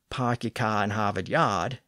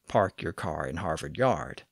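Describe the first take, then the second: First: The R sounds after vowels are dropped. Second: The R sounds after vowels are pronounced. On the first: "famously non-rhotic to this day" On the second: "instead of"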